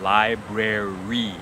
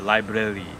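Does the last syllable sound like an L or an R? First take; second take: R; L. First: The last syllable is made with an R sound. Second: The last syllable is made with an L-like tongue sound. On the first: The speaker calls it right. "use the R sound at the end" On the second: The speaker calls it wrong. "the tendency is then to use the tongue on the last li"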